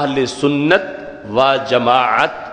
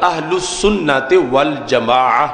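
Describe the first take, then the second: First: The final word ends with a clear t sound. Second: The final word ends without a t sound. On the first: "अगर उर्दू में पढ़ेंगे तो ... दोनों में ता पढ़ा जाएगा" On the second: "अगर अरबी लहजे में पढ़ेंगे तो फिर ये जो ता होता है ये हालत वक़फ़ में हा बन जाता है"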